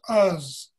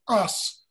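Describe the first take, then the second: First: The final S is a fuzzy, buzzing sound. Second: The final S is a crisp, hissing sound.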